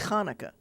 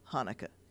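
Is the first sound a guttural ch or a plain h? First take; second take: guttural ch; plain h. First: It begins with a throaty, guttural ch sound. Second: It begins with a plain, soft h sound. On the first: This is the authentic pronunciation. "It's really Hanukkah" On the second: This is the easiest form for English speakers. "easiest in English is ha"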